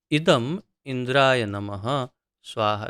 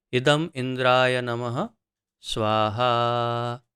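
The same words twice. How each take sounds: First: Said in the usual way. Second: Fire-offering mantra with a drawn-out स्वाहा; mantra recitation. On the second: Shown as a demonstration. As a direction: recite it as an offering, holding स्वाहा long and level. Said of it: "फिर मंत्र उच-, उच्चारण होता है, जैसे कि". (मंत्र उच्चारण, लंबा खिंचा स्वाहा)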